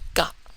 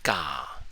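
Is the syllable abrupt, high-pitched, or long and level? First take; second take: abrupt; long level. First: The vowel is short and cut off abruptly. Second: The vowel is long and sustained at level pitch. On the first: "no longer ka" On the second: "a longer sustained tone"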